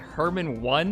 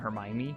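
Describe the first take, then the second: First: The name is said like three syllables, Herman-one. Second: The name is said with four syllables. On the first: The speaker calls it wrong. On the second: The speaker calls it right.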